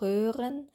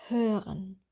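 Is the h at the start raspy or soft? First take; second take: raspy; soft. First: The h is raspy with the tongue raised. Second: The h is soft with the tongue lying flat. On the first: The speaker calls it wrong. "Wir sagen nicht hören" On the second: The speaker calls it right. "sondern hören"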